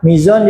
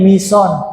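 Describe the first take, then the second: First: The middle consonant is a z sound. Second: The middle consonant is an s sound.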